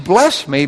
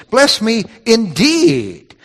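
First: Said in the usual way. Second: "indeed" drawn out long and hit hard; with emphasis. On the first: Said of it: "but with emphasis". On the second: Shown as a demonstration. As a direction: stretch "indeed" slowly, pitched high for emphasis. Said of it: "with emphasis".

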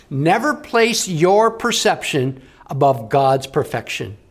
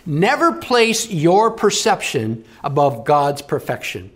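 Both takes have the same delivery.

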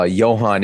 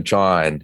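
First: "Johann" with a Y sound, as YO-han; Korean pronunciation. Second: Said in the usual way. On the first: Shown as a demonstration. Guest showing a biblical name, "Johann" said the Korean way. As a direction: say "Johann" starting with Y, two syllables. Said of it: "how the Korean people pronounce". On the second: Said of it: "instead of John".

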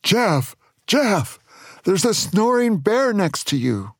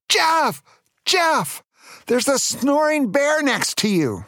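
First: Mock shout, raised in pitch but not volume; moderately high acted shout of alarm. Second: High-pitched mock yell of alarm; urgent storybook yell, pitched way up. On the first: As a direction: call out a storybook warning. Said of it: "Then Chuck shouted". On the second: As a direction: yell a warning in a squeaky high voice. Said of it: "he yelled". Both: A narrator's reading.

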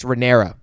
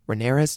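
First: Rhaenyra ending on an open A, falling; corrected name. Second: Rhaenyra's with an S on the end, questioning; mispronounced name. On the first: Vlogger correcting the name, Rhaenyra with no final S. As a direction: say Rhaenyra with no S at the end. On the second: Vlogger checking the name, Rhaenyra's with a final S. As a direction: say Rhaenyra's ending in an S sound. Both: Real, not acted. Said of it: "have I been saying Rhaenyra's".

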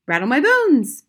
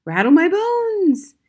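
First: High, loud spooky parrot. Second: Slow, drawn-out high ghostly wail; loud, high, slow spooky voice; spooky parrot voice. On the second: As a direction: stretch it out like a haunting parrot. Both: A narrator's reading. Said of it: "wonderful imitation of a spooky voice".

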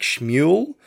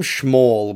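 First: Schmuel said as shmoo-el, two syllables; preferred pronunciation. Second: Schmall said with a short flat "all" vowel; film pronunciation. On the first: Reviewer offers his own take, Schmuel as shmoo-el. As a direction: say Schmuel with an oo then el. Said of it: "I think maybe it would be more like Schmuel". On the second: Reviewer gives the film's version, Schmall said plainly. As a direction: say it Schmall, rhyming with small. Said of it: "they call him Schmall". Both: Shown as a demonstration.

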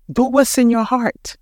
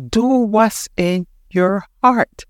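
First: Said in the usual way. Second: Drawn out word by word; slow emphatic repeat; slow, deliberate urging. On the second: Real, not acted. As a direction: press it home slowly, pausing between words.

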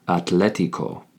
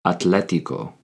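Both takes have the same delivery.

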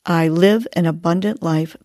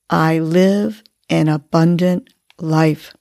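First: Said in the usual way. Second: "I live an abundant life" said slowly, breathed out; slow affirmation on the exhale. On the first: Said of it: "Let's remind ourselves". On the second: Shown as a demonstration. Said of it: "and on the exhale".

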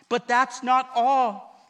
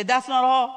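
First: "But that's not all" with a slow, heavy "not"; stress on not. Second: "That's not all" with a loud stretched "all"; call and response. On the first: Pastor teaching the church a line, heavy on "not". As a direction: lean hard on "not" and let it fall. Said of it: "Say, "That's not all". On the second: Pastor giving the line for the church to repeat, loud "all". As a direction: hit "all" loud and land it. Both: Shown as a demonstration.

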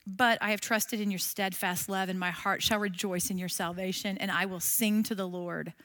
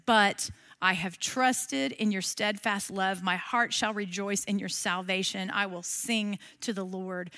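First: A touch of hushed trust; soft recited verse. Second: Softer, slower recited verse; a touch of hushed reverence; quiet reading. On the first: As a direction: pray the verse softly. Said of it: "How about this one?". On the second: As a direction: let the verse settle gently. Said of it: "that verse five says". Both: Shown as a demonstration.

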